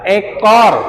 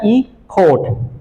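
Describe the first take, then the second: First: It is pronounced with Indonesian sounds. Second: It is pronounced with English sounds. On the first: "Dia bacanya apa? Ekor" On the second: "Cara baca Inggrisnya caranya e-court"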